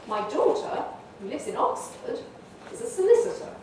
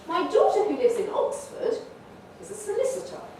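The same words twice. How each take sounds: First: The opening part is split into separate phrases. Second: The opening part forms one phrase, peaking on Oxford.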